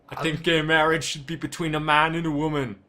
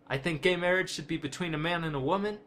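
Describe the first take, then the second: First: Read in a put-on, heavily accented impersonation voice. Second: Read in the speaker's ordinary speaking voice.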